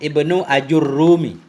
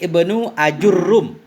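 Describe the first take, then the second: First: The name ends with a vowel after m. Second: The name ends on a bare final m. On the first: "tapi dengan mim" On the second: "sukun mim"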